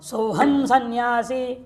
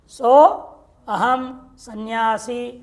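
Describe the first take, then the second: First: The words 'so' and 'aham' merge into 'soham'. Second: The words 'so' and 'aham' are kept separate. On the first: "संधि कार्य करना तो सोहम सन्यासी" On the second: "संधि कार्य कुछ नहीं किया मैंने"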